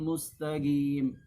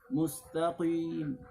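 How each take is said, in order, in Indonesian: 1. Bunyi q diganti dengan g. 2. Bunyi q diucapkan dengan bibir membulat. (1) "ditukar dengan huruf gim, gi" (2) "tidak boleh dibaca mustaqim"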